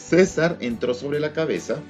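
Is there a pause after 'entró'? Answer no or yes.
no. There is no pause after 'entró'. Caesar entered on top of his head. The speaker calls it wrong. "uso incorrecto"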